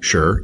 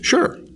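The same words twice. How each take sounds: First: It is said at a lower pitch. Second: It is said at a higher pitch.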